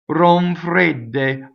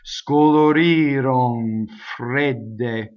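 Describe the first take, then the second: First: The phrase is said quickly and naturally. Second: The phrase is said slowly and exaggerated. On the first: "if I do it fast, you can hardly see it" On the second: "I exaggerated it. You see, I slowed it way down"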